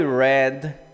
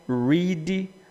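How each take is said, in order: First: The vowel is short, like in 'red'. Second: The vowel is long, like in 'reed'. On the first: It happened in the past. "no passado" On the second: It happens regularly now. "no presente"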